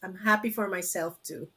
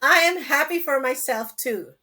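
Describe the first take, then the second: First: It is said hesitantly, without conviction. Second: It is said firmly, with conviction.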